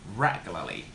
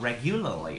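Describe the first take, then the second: First: The stress falls on the first syllable. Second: The stress falls on a later syllable. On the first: The speaker calls it right. "We put the word stress in the first syllable" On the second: The speaker calls it wrong. "not uh, regularly or something like that"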